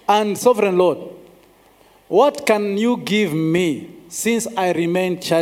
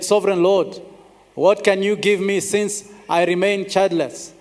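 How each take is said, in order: First: It is said with human frustration. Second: It is read plainly, like a text.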